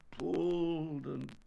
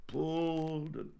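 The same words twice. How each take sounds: The two takes are said the same way.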